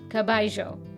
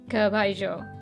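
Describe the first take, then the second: First: It is said with an Argentine accent. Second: It is said with an Argentine accent.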